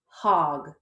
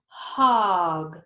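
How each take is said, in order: First: The word is said quickly as one unit. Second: The word is drawn out slowly, sounds stretched. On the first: "Let's say it fast like a word" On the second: "Let's blend it slowly"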